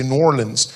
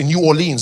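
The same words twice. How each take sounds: First: "New Orleans" squashed to NOR-lunz; "New Orleans" run together, ending unstressed; American local pronunciation. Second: "New Orleans" as new or-LEENS; "New Orleans" in full, separate words; South African pronunciation. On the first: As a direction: say "New Orleans" as Nawlins-style two syllables. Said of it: "they say New Orleans". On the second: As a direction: say "New Orleans" with a long ee ending. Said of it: "they don't say New Orleans". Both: Shown as a demonstration.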